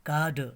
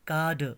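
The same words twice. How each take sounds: Both takes have the same delivery.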